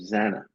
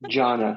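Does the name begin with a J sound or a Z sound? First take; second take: Z sound; J sound. First: The name begins with a Z sound. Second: The name begins with a J sound. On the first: The speaker calls it wrong. "I mispronounced your name" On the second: The speaker calls it right. "You gotta put a J instead of the Z"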